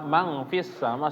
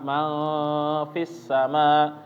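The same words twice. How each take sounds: First: The nasal sound is cut short and rushed. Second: The nasal sound is held before moving on. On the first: The speaker calls it wrong. "tiba-tiba di mangnya langsung pindah" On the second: The speaker calls it right. "seharusnya ditahan dulu ya"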